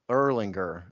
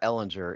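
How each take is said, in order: First: The name is said with an r sound. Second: The name is said without an r sound. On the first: The speaker calls it right. "It's Erlinger" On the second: The speaker calls it wrong. "it's not Ellinger"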